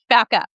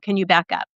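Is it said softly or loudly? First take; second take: loudly; softly. First: It is said loudly with a strong voice. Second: It is said calmly at normal volume.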